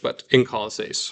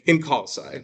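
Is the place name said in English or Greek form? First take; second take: Greek; English. First: The name is said in Greek with a case ending. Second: The name is said in its English form. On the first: "because in English we don't have those case endings" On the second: "as we'd say it in English"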